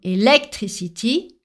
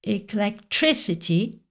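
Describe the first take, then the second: First: The stress falls on an unexpected syllable. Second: The stress falls on the expected English syllable. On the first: Listeners may not understand the word. The speaker calls it wrong. "pas sûr qu'il soit compris par les anglophones" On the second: Listeners are more likely to understand the word. The speaker calls it right. "l'accent tonique étant au bon endroit"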